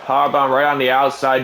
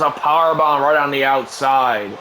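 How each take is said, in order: First: Said in the usual way. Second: Shouted call. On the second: Acted. Shout as move lands.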